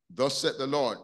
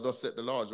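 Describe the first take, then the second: First: "Thus said the Lord" proclaimed louder, weight on "Lord"; proclaimed scripture phrase. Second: Said in the usual way. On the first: Shown as a demonstration. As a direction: announce "Thus said the Lord" like a prophet, landing on "Lord". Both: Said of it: "you hear a lot of".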